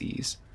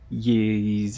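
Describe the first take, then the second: First: The word begins with a plain vowel sound. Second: The word begins with a Y sound. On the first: "I'm pretty sure it's ease" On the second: "I've heard ye like the yees as well"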